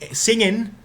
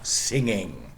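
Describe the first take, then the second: First: The ending is a plain n sound. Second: The ending is an ng sound. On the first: "what people usually spell with an apostrophe" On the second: "instead of singing"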